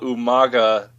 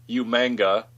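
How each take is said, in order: First: The name is said with a plain 'g', no 'n'. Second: The name is said with an 'n' before 'g'. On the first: The speaker calls it right. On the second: The speaker calls it wrong.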